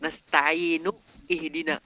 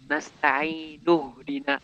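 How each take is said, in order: First: The initial vowel of ihdina is clearly pronounced. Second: The initial vowel of ihdina is dropped in linking. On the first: The speaker calls it wrong. "Enggak kayak gitu kan bacaannya" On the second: The speaker calls it right. "Tapi nasta'inu dina"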